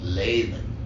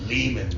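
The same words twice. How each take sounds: First: The name is said the German way. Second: The name's first syllable rhymes with demon. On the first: "in Germany, the name is German and they pronounce it Lehman" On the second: "Lehman rhymes with demon"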